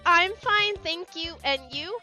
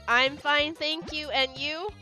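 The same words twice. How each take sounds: First: It is said in a natural voice. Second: It is said in a flat, robotic voice.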